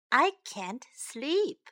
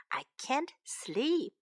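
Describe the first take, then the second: First: Said in the usual way. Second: Slow unvoiced whisper. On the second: Shown as a demonstration. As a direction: whisper it slowly and softly. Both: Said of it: "time to learn some English".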